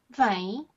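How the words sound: It is said as a questioning query.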